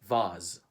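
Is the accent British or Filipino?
British. Spoken with a British English accent. "In the U K, they say vase"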